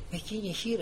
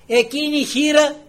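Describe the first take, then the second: First: Said in the usual way. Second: Loud, high proclamation; impassioned preaching. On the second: Real, not acted. Preacher holds up the widow as example, impassioned. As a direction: proclaim her to the congregation.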